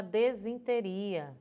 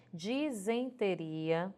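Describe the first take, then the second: First: "desinteria" with E first, "de-zin-te-ria"; mispronunciation. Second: "disenteria" with I first, "di-zen-te-ria"; correct pronunciation. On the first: Retold or imitated. Teacher quoting people's mistaken "desinteria", DE-zin mispronounced. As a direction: swap the vowels, DE-zin in "desinteria". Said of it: "Pronúncia errada". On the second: Shown as a demonstration. Teacher correcting the mistake, "disenteria" with DI-zen. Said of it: "O correto é".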